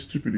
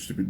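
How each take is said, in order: First: Stipid said the French way as stupide, ending in a rounded u and a final d; French pronunciation. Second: Stipid said the English way as stupid, with a plain i sound; English pronunciation. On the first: (di stipid an fransè, "stupide") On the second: (di stipid an angle, "stupid") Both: Shown as a demonstration. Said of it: "se stipid ou stipid".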